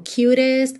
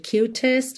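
First: The middle t sounds like a quick tapped r. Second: The middle t is a clear, full t. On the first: "quando T e D tem aquele rarará como cutest" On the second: "ao invés de cutest"

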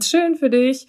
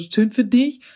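First: It is said warmly and sincerely. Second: It is said in a sarcastic, bitter tone.

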